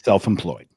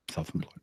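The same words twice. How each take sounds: First: Said in the usual way. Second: "self-employed" muttered much softer, almost under breath; quiet aside. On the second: Real, not acted. Repeating his job to cousin, "self-employed" echoed under his breath. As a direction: drop "self-employed" to a near-silent echo. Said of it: "repeated softer".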